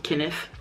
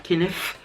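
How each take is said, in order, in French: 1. Le nom se dit avec des sons anglais. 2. Le nom se dit avec des sons anglais.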